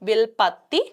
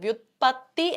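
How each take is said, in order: First: The word begins with a 'vil' sound. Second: The word begins with a 'vyut' sound. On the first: The speaker calls it wrong. "വിൽപത്തി അല്ല" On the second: The speaker calls it right. "വ്യുത്പത്തി എന്നാണ് പറയേണ്ടത്"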